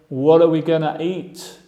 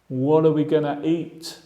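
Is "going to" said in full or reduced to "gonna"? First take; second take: reduced; reduced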